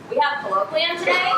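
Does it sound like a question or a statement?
question. It is said with question intonation. It asks whether it is so. "into a question"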